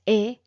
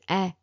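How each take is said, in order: First: "eh" said as closed French é, like "ay" without a glide; crisp closed French é on "eh"; accent aigu sound. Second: "eh" said as open French è, as in "bed"; accent grave sound. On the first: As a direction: say "eh" with the tight, closed é vowel. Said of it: "Accent aigu is". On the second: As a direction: say "eh" with an open, held vowel. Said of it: "this one is". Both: Shown as a demonstration.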